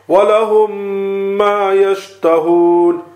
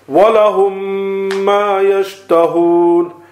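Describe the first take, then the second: No difference in how they are said.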